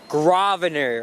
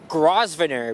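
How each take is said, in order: First: The S sound is left out of the word. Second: The S sound is pronounced in the word. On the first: The speaker calls it right. "the S is silent" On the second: The speaker calls it wrong. "Tourists might think it's called Grosvenor"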